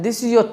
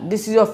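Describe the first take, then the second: No difference in how they are said.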